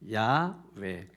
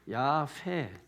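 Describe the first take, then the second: First: The second syllable starts with a vowel sound. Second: The second syllable starts with an h sound. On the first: The speaker calls it right. "정확한 발음은 우리가 야외라고 부르는 야외" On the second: The speaker calls it wrong. "멋있게 하려고 야회 또 이렇게 하신 분이 있어요 ... 회하면 H부터 시작하게 돼"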